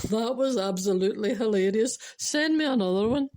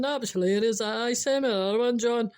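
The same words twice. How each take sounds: First: Louder, drawn-up finish on the request; boss's delighted reply. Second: Broad Scottish take on an amused boss. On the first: Boss texting John back for more jokes, delighted. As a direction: enthusiastic boss praising a joke. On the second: Boss imagined replying to John, broad Scottish. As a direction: lean into the Scots, brisk and hearty. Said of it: "wee Scottish bit in it". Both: Acted.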